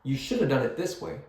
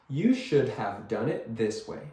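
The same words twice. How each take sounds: First: "shoulda" quick and blended, sentence run together fast; fast reduced speech. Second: Said in the usual way. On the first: Shown as a demonstration. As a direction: rush it, "You shoulda" as one word. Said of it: "when you say this fast". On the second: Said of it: "nobody talks like that".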